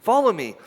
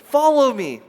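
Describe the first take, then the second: First: Said in the usual way. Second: Louder inviting call. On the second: Retold or imitated. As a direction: Follow me called out louder and higher. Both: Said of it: "And Jesus says".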